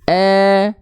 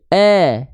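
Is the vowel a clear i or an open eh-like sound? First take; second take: open eh; open eh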